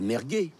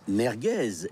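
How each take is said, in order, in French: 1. Le son z final est muet. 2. Le son z final se prononce. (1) "et pas merguez" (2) "On dit bien merguez"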